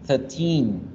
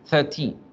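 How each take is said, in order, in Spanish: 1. La sílaba final se alarga y lleva acento. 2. La sílaba final es corta y no lleva acento. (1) "la forma correcta era 13, 13, teen, alargarlo un poquito más" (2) "Voy a hacer el ejercicio de no alargar los del 13 al 19"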